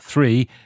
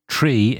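First: It begins with a th sound. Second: It begins with a plain t sound. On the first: The speaker calls it right. "not to pronounce the TH" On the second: The speaker calls it wrong. "instead of"

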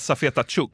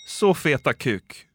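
First: The surname begins with a soft tj sound. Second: The surname begins with a hard k sound. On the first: It is the proper name. The speaker calls it right. "Man ska nog säga safeta tjuk" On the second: It sounds like a crude phrase. The speaker calls it wrong. "om man går in för att uttala det fel så kan det bli så feta kuk"

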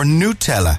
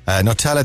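First: It is said the official, intended way. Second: It is said the everyday, casual way.

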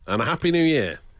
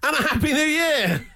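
First: It is said flatly, without enthusiasm. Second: It is said with enthusiasm and feeling.

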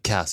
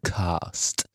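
First: It is said with an American accent. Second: It is said with a British accent. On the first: The speaker calls it right. "vi har valt att embracea den amerikanska kulturen" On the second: The speaker calls it wrong. "inte den brittiska"

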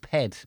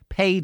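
First: The vowel is a short 'e' sound. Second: The vowel is a long 'ay' sound. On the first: "most of them pronounce words like paid is ped" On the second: "pronounce words like paid is ped"

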